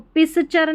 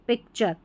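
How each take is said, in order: First: An s sound comes before 'char'. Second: A k sound comes before 'char'. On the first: The speaker calls it wrong. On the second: The speaker calls it right.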